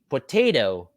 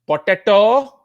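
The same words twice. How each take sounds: First: The word has its standard American pronunciation. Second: The word has a nonstandard, non-American pronunciation. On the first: The speaker calls it right. "the correct pronunciation of English words in the United States" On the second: The speaker calls it wrong. "not potato"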